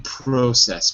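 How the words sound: The first vowel sounds like 'oh'. "In British English, maybe process"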